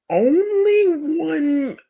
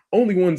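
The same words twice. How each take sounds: First: ONLY ONE stretched out very slow and high; "only one" held long for big emphasis; emphatic ONLY ONE. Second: Said in the usual way. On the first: Real, not acted. Emphatic drawn-out opening, then restated normally.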